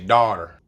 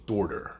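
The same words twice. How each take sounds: First: It is said with a general American accent. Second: It is said with a New York accent. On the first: "If you were maybe in another part of the U S, you may say daughter" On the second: "how we say daughter in New York"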